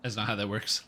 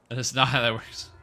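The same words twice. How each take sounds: First: Said in the usual way. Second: "not" hit louder, falling at the end; stress on not. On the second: Shown as a demonstration. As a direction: punch the word "not", louder.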